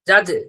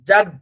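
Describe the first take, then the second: First: The final consonant bounces with an added echo vowel. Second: The final consonant stops cleanly with no echo. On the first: The speaker calls it wrong. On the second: The speaker calls it right.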